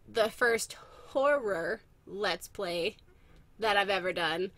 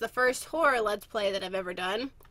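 First: Each word is articulated clearly and carefully. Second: The words are run together casually. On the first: The speaker calls it right. "Let me, like, enunciate" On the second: The speaker calls it wrong. "It just sounded funny when I said it just now"

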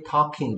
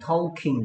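First: No L sound is pronounced in the middle. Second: An L sound is pronounced in the middle. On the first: The speaker calls it right. "이 L이 소리가 안 나고 있어" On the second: The speaker calls it wrong. "소리가 난다면 talking이나 talking 돼야 되겠지"

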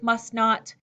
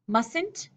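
First: It is said as two separate words. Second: It is said as one contracted word. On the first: "separate them out" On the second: "a contraction"

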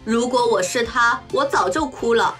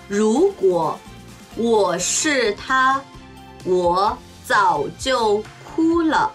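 First: It is spoken at natural fast speed. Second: It is spoken slowly and deliberately. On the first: "中国語ネイティブスピード1 回" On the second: "中国語ゆっくりスピード1 回"

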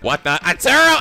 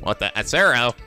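First: It is said in a put-on character voice. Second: It is said in the speaker's normal voice.

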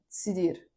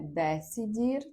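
First: The first vowel is dropped completely. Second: The first vowel is a clear e sound. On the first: "Ви можете чути як цідір" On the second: "Читається не десідір"

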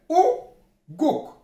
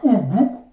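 First: The vowels are said as 'o' sounds. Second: The vowels are said as 'oo' sounds. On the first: The speaker calls it right. "mais Ogok" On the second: The speaker calls it wrong. "c'est pas Ougouk"

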